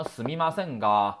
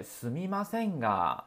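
First: すみませんが with a hard, blunt が; harsh wrong way. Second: Softly, with a gentle trailing が. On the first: Teacher showing students the ugly wrong way: blunt, hard が. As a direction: bark out the が bluntly. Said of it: "太难听了啊". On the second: Teacher showing students the right way: soft, gentle すみませんが. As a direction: let the が melt away softly. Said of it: "意要柔和一些". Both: Shown as a demonstration.

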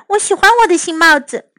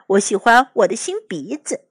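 First: Raised, quick character voice; pleased mother. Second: Oliver. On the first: Mother admires her bubble hat, raised quick voice. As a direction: say it quickly with a lifted voice. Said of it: "她说". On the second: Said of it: "奥利弗说". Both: A narrator's reading.

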